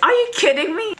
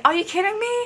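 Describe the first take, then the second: First: Very high, loud mock outrage; raised voice. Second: High, playful mock indignation; kidding. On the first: Fan showing how her voice rose at the idol, raised voice. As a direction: let the voice shoot up, indignant. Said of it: "my voice just raised". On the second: Fan showing she was only joking with him, kidding. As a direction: pitch it high without pushing the volume. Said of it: "I'm kidding when I said".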